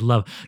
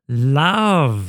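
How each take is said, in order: First: The word is said plainly and briefly. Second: The word is drawn out with ironic exaggeration. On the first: The emotion is named sincerely. The speaker calls it wrong. "You can't just say love" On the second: The speaker keeps an ironic distance from genuine emotion. The speaker calls it right. "You gotta say it like that"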